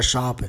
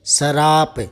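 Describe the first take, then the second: First: शाप as one clean syllable, shaap with no r; शाप spoken as the proper pure form; correct pronunciation. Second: शराप with an extra vowel, sa-raap in two syllables; शराप spoken as the mistaken everyday form; wrong pronunciation. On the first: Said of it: "शाप होता है". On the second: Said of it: "लेकिन शराप नहीं होता". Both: Shown as a demonstration.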